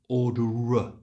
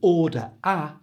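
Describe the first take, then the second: First: The r links onto a reduced uh sound. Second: The a is a separate clear ay sound. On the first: "has become order R" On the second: "So order A"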